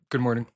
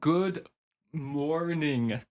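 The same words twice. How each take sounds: First: It is said quickly and casually, sounds blurred. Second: It is said slowly with careful enunciation.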